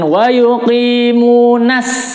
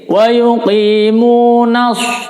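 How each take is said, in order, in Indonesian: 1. Bunyi s itu adalah s biasa yang ringan. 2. Bunyi s itu adalah s tebal yang emfatik. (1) "jangan wa yuqimunas ya, itu jadi sin" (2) "menggunakan huruf shad"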